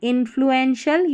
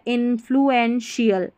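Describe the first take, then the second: First: The ending is said as a short 'shal'. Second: The ending is said as a longer 'shial'. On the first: "शल करके पढ़ेंगे" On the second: "शियल करके पढ़ सकते हैं"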